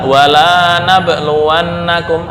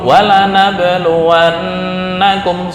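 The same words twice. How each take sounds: First: The vowel in 'la' is held long. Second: The vowel in 'la' is kept short. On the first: We will not test you. "Ketika dibaca panjang nih" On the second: We will surely test you. "kalau dibaca pendek positif"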